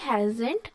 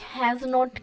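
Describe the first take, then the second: First: It is said as one joined word. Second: It is said as two separate words.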